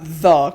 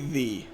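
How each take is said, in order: First: The word ends in an 'uh' vowel. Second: The word ends in a different, non-'uh' vowel. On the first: The speaker calls it wrong. "it's not the because that would be spelled T H A" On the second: The speaker calls it right. "It's technically the"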